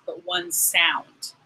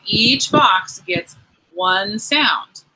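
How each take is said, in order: First: "one" dito devagar e com ênfase; stress on one. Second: Slow, stressed teaching. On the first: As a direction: lean on "one", slow and clear. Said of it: "Not necessarily one letter". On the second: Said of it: "Okay, so remember". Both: Shown as a demonstration.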